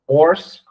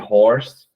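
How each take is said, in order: First: The word starts without any h sound. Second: The word starts with a breathy h sound. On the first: The speaker calls it wrong. "é muito comum a gente escutar a pessoa falar horse" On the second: The speaker calls it right. "ao invés de horse"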